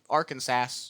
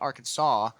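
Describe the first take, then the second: First: The word ends sounding like Kansas. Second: The word ends with a saw sound. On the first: "Kansas is how you know that the same spelling. It would make sense that it would be Arkansas" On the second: "rather than Arkansas"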